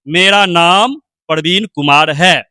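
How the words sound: There is a short pause before the name. The listener can catch the name clearly. The speaker calls it right. "नाम से पहले थोड़ा सा विराम दिए"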